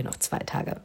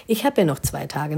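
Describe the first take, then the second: First: "Ich hab ja noch zwei Tage" whispered to herself; consoling whisper. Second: Said in the usual way. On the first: Shown as a demonstration. Bride comforting herself about the buffet, whispering. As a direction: breathe it as quiet self-comfort.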